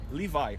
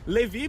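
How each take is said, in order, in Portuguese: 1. O nome é falado do jeito inglês. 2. O nome é falado do jeito brasileiro. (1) "mas em inglês o nome Levi é Levi" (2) "o nome do cara é Levi pra gente"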